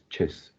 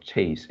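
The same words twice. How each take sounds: First: The syllable is short, weak and reduced. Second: The syllable is said as a full 'chase'. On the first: The speaker calls it right. "it's chase" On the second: The speaker calls it wrong. "the second syllables is not chase"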